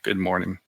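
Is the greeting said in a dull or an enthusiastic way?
dull. It is said flatly, without energy. The speaker is not glad to be there. The speaker calls it wrong. "I go, "Ah, yeah, good morning.""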